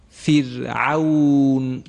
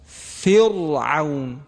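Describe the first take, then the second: First: فرعون very slow, with the ra thin and light; thin ra recitation. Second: فرعون very slow, with a thick, heavy ra; wrong heavy ra. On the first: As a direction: recite فرعون drawn out, keeping the ra fine. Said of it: "میخوانم". (فرعون را کشیده و با راء نازک بخوان) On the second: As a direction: show the wrong, full-mouthed ra in فرعون. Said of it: "اگر کسی بخواد تفخیم بکنه ... پسندیده و زیبایی نیست". (فرعون را عمداً با راء پُر و درشت بخوان) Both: Shown as a demonstration.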